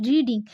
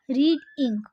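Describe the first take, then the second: First: Said in the usual way. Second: रीड and इंक as two separate beats; split into syllables. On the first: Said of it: "दोनों की मात्रा इसमें आ रही है". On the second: Shown as a demonstration. Teacher showing the two syllables, split apart. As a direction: say रीड, pause briefly, then इंक. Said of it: "इसमें दो syllable है".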